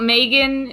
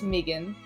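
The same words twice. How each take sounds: First: The name is said in a non-Australian way. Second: The name is said the Australian way. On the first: The speaker calls it wrong. "It's not Megan" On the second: The speaker calls it right. "It's how we say it down under"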